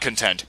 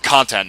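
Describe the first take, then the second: First: The stress is on the second syllable. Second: The stress is on the first syllable. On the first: The speaker calls it wrong. "not content" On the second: The speaker calls it right. "I actually pronounced it right this time"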